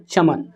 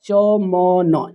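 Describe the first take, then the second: First: Said in the usual way. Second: च म न drawn out slowly, each with an open "aw" vowel; च... म... न, stretched apart as in spelling practice; sound by sound. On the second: Shown as a demonstration. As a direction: sound out च, म, न as separate long syllables. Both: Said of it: "अ की उच्चारण है".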